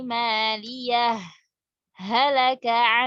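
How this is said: A brief stop separates the two words. The reciter stops briefly without taking breath. "saktah. Kita berhenti sejenak tanpa bernapas"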